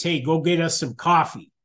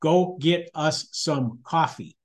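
First: Lightly voiced wifey request; a casual, quick nudge from a wife. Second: Slow, word-by-word wifely order; real wifey voice. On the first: Wife sending her husband for coffee, lightly voiced wifey voice. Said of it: "said in her wifey voice". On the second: Retold or imitated. Wife overruling husband's excuse about lines, real wifey voice. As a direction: spell it out slowly, leaving no room to argue. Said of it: "said in the real wifey voice".

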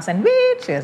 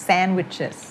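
First: "sandwiches" with WICH leaping high and drawn out; wrong singsong stress. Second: Small hop on SAND in "sandwiches", then down; light first-syllable stress. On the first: Teacher shows what not to do, "sandwiches" sung up on WICH. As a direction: sing out the middle of "sandwiches", exaggerated. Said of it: "เราไม่เอา sandwiches อย่างเงี้ย". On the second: Teacher models the correct word, light stress on SAND of "sandwiches". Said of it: "stress มันแค่กระโดดขึ้นนิดเดียว แต่ไม่ต้องร้องเพลง". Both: Shown as a demonstration.

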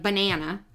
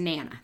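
First: Said in the usual way. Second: "nana", banana without its first syllable; weak syllable dropped. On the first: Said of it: "So they simplify it to". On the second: Shown as a demonstration. Showing how kids simplify banana, clipped to "nana". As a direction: drop the ba and say just "nana". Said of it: "They get rid of the ba".

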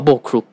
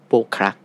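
First: โบครุก read with a short "u" vowel, bo-kruk; second reading. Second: โบครัก read with a short "a" vowel, bo-krak; first reading. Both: Shown as a demonstration. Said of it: "อ่านได้สองแบบ".

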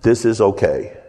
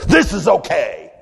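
First: Said in the usual way. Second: THIS IS OKAY punched out higher, every word firm; emphatic. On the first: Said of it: "I'll show you what". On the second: Shown as a demonstration. Preacher shows the congregation what emphatic means, emphatic. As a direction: say THIS IS OKAY with forceful emphasis, no anger. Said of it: "It's just emphatic".

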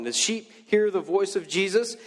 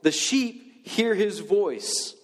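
First: Said in the usual way. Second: "hear" drawn out slowly with falling pitch; slow scripture reading. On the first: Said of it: "This is Jesus talking". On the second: Shown as a demonstration. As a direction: read "The sheep hear his voice" slowly, weighting "hear". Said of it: "he says this in John ten".

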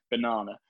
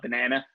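First: Banana with a long British ah, as in "ba-NAH-na"; British accent. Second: Banana with an American flat a, as in "ban-AN-a"; American accent. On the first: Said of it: "being all British". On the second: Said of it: "impressed with your American accent there". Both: Shown as a demonstration.

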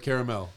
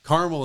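First: Said in the usual way. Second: "Caramel" in two syllables, CAR-mul; dialect pronunciation. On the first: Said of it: "instead of caramel". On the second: Retold or imitated. Host showing family words, "Caramel" pronounced CAR-mul. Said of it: "Caramel instead of caramel".

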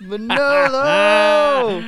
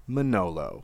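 First: High, loud, long-held holler of the name; booming mock summons; drawn-out call. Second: Low, understated name drop; low-key punchline reveal; dramatic reveal. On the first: Calling out the name. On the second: Acted. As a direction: drop the name lower, after a pause. Dramatic reveal of chosen person.

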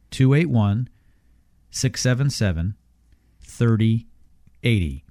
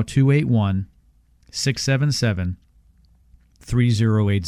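First: Slow, each digit spaced out; slowly. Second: Said in the usual way. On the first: Shown as a demonstration. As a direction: say it slowly, pausing between groups. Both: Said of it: "One more time slowly".

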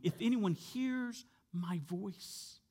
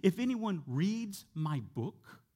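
First: "hears" and "voice" drawn out slowly; stress on hears my voice. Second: "reads" and "book" held slowly, as a misquote; slow, pointed lift on "reads my book"; stress on reads my book. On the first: Preacher quoting what Jesus does say, slow stress on "hears my voice". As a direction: stretch "hears", then land slowly on "voice". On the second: Preacher showing what Jesus did not say, pointed stress on "reads my book". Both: Shown as a demonstration. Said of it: "notice what he does not say".

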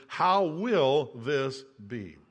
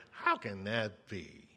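First: Slow, lower, honest question; slow and sincere; sincere wondering. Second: Lower, softer, slow skeptical drawl; low, slow doubtful question; doubting inflection. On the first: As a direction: ask it in open wonder, not doubt. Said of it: "the literal translation of this verse is". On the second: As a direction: say it like you don't believe a word. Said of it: "we kind of put our own inflection in there". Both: Shown as a demonstration.

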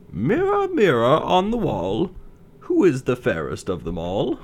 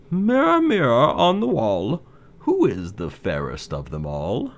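First: High, sweeping queen's call; wicked queen voice. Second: Queen calling the mirror, rising; wicked queen voice. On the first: Wicked queen asks mirror. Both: Acted. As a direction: vain queen summoning her mirror.

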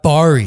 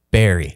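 First: Barry mispronounced as an outsider would; mistaken pronunciation. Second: Barry said the corrected, local way; local pronunciation. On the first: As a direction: mimic the mistaken reading of Barry, louder. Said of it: "Not Barry". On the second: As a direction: give Barry its proper Ontario town pronunciation. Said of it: "is pronounced Barry". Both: Shown as a demonstration.

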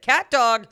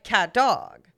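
First: CAT DOG run together as one name, falling at the end; said as one word. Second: CAT DOG as two separate words, imitating the co-host; mimicked as two words. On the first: Shown as a demonstration. Showing co-host the right cat dog, said as one word. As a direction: join CAT DOG into a single word, weight up front. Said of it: "it's more of one word". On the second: Quoting co-host's cat dog back at them, mimicked as two words. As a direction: copy someone splitting CAT DOG in two. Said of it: "and you were like".

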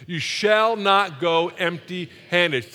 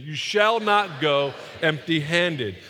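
First: "You shall not go empty-handed" slowly, every word weighted; slow emphatic declaration. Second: "You shall not go empty-handed" slow and firm; with conviction. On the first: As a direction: lead the crowd word by word. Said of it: "Say that with me". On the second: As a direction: declare it like you mean it. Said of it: "Say it with conviction". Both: Shown as a demonstration.

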